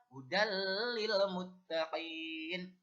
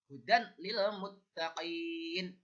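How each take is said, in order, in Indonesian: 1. Bunyi n melebur menjadi l yang dobel. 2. Bunyi n jelas tetap terdengar sebelum l.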